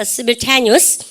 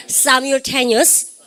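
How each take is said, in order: First: "Simultaneous" starting with a short "sim"; first accepted pronunciation. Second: "Simultaneous" starting with "sigh-m", drawn out slowly; second accepted pronunciation. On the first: Teacher drilling both accepted ways, "Simultaneous" with short-i opening. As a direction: say "Simultaneous" with first vowel as in "him". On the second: Teacher drilling both accepted ways, "Simultaneous" with SAI opening. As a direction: open "Simultaneous" on an eye vowel, slowly. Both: Shown as a demonstration. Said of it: "둘 다 가능합니다".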